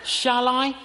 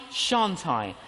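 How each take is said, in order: First: Higher, louder shall I; debating aloud, higher; hesitant question, raised. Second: Shan't I, dropped lower; second thought, lower; lower answering doubt. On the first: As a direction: ask yourself, lifted up. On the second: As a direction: weigh the other side, lower. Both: Shown as a demonstration. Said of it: "I get a quiver in my liver".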